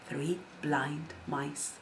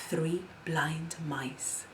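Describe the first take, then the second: No difference in how they are said.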